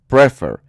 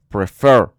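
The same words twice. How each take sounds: First: The stress is on the first syllable. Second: The stress is on the second syllable. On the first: The speaker calls it wrong. "no es prefer" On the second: The speaker calls it right. "la sílaba fuerte, está al final, porque es prefer"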